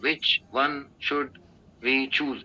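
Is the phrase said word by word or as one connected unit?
word by word. Each word is said separately with breaks between. The speaker calls it wrong. "ऐसे नहीं होता है"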